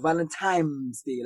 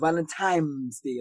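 First: It is said in a Southern accent. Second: It is said in a Southern accent.

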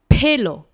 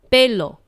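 First: The first consonant has a puff of air. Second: The first consonant has no puff of air. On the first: The speaker calls it wrong. "Pelo 是不正确的发音哦" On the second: The speaker calls it right. "你要念成非送气音，也就是Pelo"

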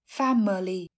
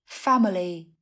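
No difference in how they are said.

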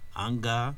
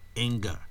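First: The vowel is said in a Nigerian accent. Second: The vowel is said in the local accent. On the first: The speaker calls it wrong. "we'll pronounce in Nigeria or in Africa as" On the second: The speaker calls it right. "You rather see it as"

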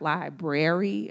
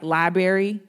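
First: The word does not end sounding like 'berry'. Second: The word ends sounding like 'berry'. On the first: "not library, or however you say it" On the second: "like berry"

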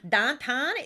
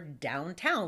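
First: The vowel is flat, with no w-glide. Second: The vowel is a full ow glide. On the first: This is the local way of saying it. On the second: This is the usual way of saying it.

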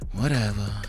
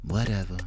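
First: It is said in a sweet, nice tone. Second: It is said in a dismissive, uncaring tone.

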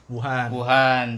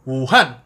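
First: The syllables carry level pitch without Mandarin tones. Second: The syllables carry Mandarin tones, marked on Han. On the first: The speaker calls it wrong. "Bacanya salah sebenarnya" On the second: The speaker calls it right. "Bacanya Wuhan. Kayak gitu. Ada tekanan di Han-nya"

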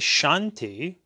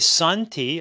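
First: The word begins with an sh sound. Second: The word begins with a plain s sound. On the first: "many people use the letter H or not" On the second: "many people use the letter H or not"

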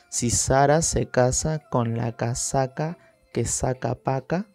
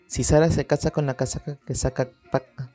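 First: It is said slowly. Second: It is said fast.

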